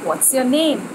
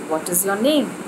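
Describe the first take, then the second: First: What and is merge into one syllable. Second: What and is are said as separate words. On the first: "the best way to say it would be" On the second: "you would surely ask a student"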